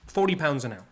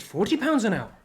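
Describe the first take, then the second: First: Said in the usual way. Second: Put-on excited child. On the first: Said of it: "he calms down and he says". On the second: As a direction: voice jumps up in retold excitement. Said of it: "So he got excited".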